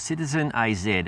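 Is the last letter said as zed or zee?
zed. The letter Z is said as zed.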